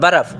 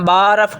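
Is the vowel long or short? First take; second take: short; long. First: The vowel is short and quick. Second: The vowel is drawn out long. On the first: The speaker calls it right. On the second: The speaker calls it wrong.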